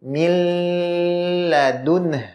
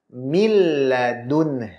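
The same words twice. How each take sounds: First: The doubled l sound is held long. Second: The doubled l sound is held short. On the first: The speaker calls it wrong. "Tidak boleh dibaca seperti ini" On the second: The speaker calls it right. "Tetapi dibaca"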